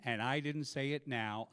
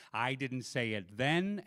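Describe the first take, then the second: First: Slow, with NOW stretched out; drawn-out, deliberate NOW; stress on NOW. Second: Slow, with THEN rising at the end; drawn-out THEN, lifted in contrast; stress on THEN. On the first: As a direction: lean on NOW to answer the contrast. Contrasts now with then. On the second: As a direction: lean on THEN, leave it hanging. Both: Real, not acted.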